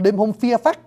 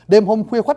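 First: The kh-w sounds become an f sound. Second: The kh-w sounds are kept as written.

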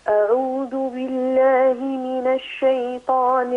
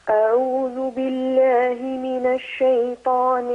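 The two takes are said the same way.

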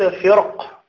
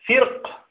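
First: The r sound is heavy and full. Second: The r sound is light and thin. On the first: "فصحيح" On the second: "بالترقيق صحيح"

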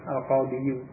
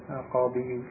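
The two takes are said the same way.

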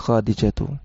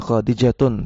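First: The word ends on a vowel without n. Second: The word ends with an added n sound. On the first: The speaker calls it right. "tapi Khadijatu" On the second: The speaker calls it wrong. "tidak dibaca Khadijatun"

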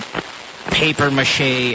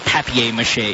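First: It is said with an American accent. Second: It is said with a British accent. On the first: "maybe the Americans would say papier mâché" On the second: "and then the British would say papier mâché"

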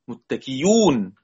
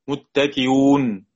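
First: The hamza is replaced by a clear y sound. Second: The hamza is softened between hamza and vowel. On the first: "أو إبدالها ياء" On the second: "بتسهيل بين"

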